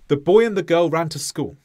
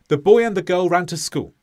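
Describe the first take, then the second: The two takes are said the same way.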